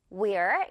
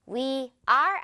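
First: "we're" as one short syllable; contracted we're. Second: "we are" as two separate, slow words; full form. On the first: Teacher picks the shortened form for learners, contracted. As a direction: merge we and are into "we're". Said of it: "이렇게 갈게요". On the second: Teacher shows learners the form to avoid, uncontracted. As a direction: give "we" and "are" a word each. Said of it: "we are 아니죠". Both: Shown as a demonstration.

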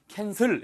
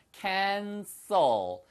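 First: "cancel" with a strong Korean 으 vowel, kensɯl; wrong Korean-style vowel. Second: "cancel" ending lightly in a clear l, no added vowel; correct English vowel. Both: Shown as a demonstration. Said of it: "발음이 cancel 이렇게 안 들리고요".

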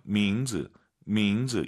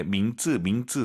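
First: 밍즈 with a lax, untensed "j" in 즈; soft consonant. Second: 밍즈 with a hard tense "jj" in 즈; wrong tense consonant. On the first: Teacher correcting learners' pronunciation, soft lax consonant. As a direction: keep the 즈 of 밍즈 light. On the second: Teacher showing learners the mistake, wrong tense consonant. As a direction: tighten the 즈 of 밍즈 into 쯔. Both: Shown as a demonstration. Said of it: "쌍지읒 아니에요".

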